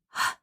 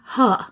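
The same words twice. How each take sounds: First: The sound is a bare breath without vowel. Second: The sound is voiced with an added vowel. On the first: The speaker calls it right. "instead of" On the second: The speaker calls it wrong. "they might say"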